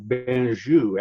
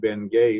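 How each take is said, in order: First: The name is said with a French-style ending. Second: The name is said like English 'Ben Gay'. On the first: This is the original pronunciation. "you were supposed to pronounce it differently" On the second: This is how Americans said it.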